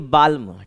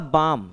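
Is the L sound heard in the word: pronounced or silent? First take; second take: pronounced; silent. First: The L sound is pronounced. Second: The L sound is silent. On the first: The speaker calls it wrong. "ना कि बाल्म" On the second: The speaker calls it right. "यहाँ हो जाएगा बाम"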